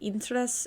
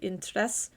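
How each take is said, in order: First: The stress is on the first syllable. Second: The stress is on the last syllable. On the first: The speaker calls it wrong. "I say interés instead of" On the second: The speaker calls it right. "the stress is at the back of the word in Spanish"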